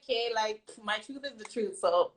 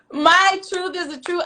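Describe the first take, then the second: First: Soft, offhand, shrugging it off; casual shrug. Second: Higher and louder, laughing through it; laughing declaration. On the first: Retold or imitated. To the critics, a soft, offhand shrug of a quote. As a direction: say it like it's obvious and no big deal. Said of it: "you know when you just like". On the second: Real, not acted. To the critics, proudly and laughing, a louder declaration. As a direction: proclaim it, still laughing.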